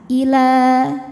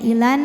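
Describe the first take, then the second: First: The final vowel is held long, two beats. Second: The vowel is short and runs into n. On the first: The reciter stops after this word. "Maka kalau berhenti panjang dua harokat" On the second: The reciter continues into the next word. "la-nya dibaca pendek langsung masuk ke nun"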